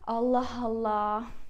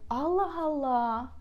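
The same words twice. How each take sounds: First: The tone sounds angry and fed up. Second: The tone sounds surprised and curious. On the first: The listener has had enough of something. "when you're angry to someone" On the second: The listener is amazed by unexpected news. "when you're so surprised"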